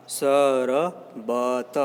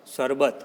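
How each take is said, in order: First: Teacher sounding out शरबत in separate syllables; split into syllables. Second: Said in the usual way. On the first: Shown as a demonstration. Teacher breaking the word up for pupils, syllable by syllable.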